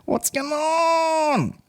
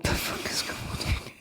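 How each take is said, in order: First: Very high, long drawn-out falsetto; silly high voice. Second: Softer, whispered disbelief; hushed bafflement. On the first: Pretend. Comedian puzzled at his ticket sales, silly drawn-out falsetto. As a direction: stretch the last word out in a squeaky wail. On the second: Real, not acted. Comedian puzzled at his ticket sales, hushed and baffled. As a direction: trail down into a whisper.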